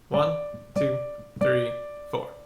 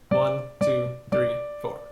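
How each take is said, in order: First: It is counted at a medium pace. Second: It is counted at a fast pace.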